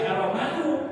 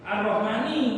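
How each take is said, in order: First: The word ends in a u vowel. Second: The word ends in an i vowel. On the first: The speaker calls it wrong. "tidak boleh Ar-Rahmanu" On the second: The speaker calls it right. "Coba Ar-Rahmani kuduni"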